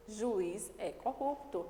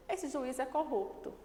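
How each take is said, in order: First: Corrupto stressed, slow after a pause on esse; slow down and land on corrupto; slow emphatic. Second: Esse stressed, pointing out this judge. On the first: Teacher reading the sentence slowly to students. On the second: Teacher stressing Esse to show students specifying. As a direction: hit Esse to single him out. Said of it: "eu tô especificando". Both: Shown as a demonstration.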